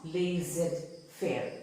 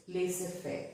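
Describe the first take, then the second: First: Laissez-faire as "lay-zed-fair", Z sounded; laissez-faire with an audible "zed" in the middle; wrong pronunciation. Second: Laissez-faire as "lay-suh-fair", no Z; laissez-faire with a soft S in the middle; correct pronunciation. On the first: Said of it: "It is not". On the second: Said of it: "but it's". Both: Shown as a demonstration.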